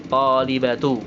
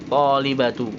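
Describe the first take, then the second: Both takes have the same delivery.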